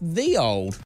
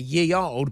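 First: The first word begins with a th sound. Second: The first word begins with a y sound. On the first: The speaker calls it right. "it was always pronounced the old" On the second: The speaker calls it wrong. "you might be inclined to say ye old"

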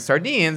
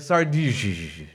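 First: It ends crisply in a plain English way. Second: Its ending trails off in a sleepy, faded way. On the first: "instead of saying sardines" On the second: "you just fade out of it. Like instead of saying sardines, you say sardinish"

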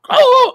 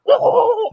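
First: It is a deep, guttural hit grunt. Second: It is a guttural grunt sounding underwater.

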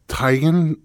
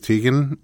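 First: The first syllable sounds like the start of tiger. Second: The first syllable does not sound like tiger. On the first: This is how the name's owner says it. The speaker calls it right. "she said it's Teigen" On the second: This is how most people say the name. The speaker calls it wrong. "everybody says Teigen"

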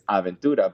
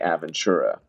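First: The name is said with a Spanish pronunciation. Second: The name is said with an English pronunciation. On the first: This is the authentic pronunciation of the name. "if you want me to pronounce it correctly, it's Aventura" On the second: This is simplified for an English-speaking listener.

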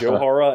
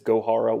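First: The name begins with a soft J sound. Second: The name begins with a hard G sound. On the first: The speaker calls it wrong. "I pronounced it Johara" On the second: The speaker calls it right. "it is Gohara with a hard G"

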